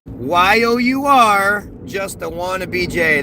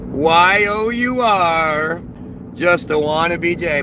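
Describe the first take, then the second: First: Mocking read. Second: Mocking read-out. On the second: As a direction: spell out each letter very slowly, mocking the commenter. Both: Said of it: "the smart person in the comments just said".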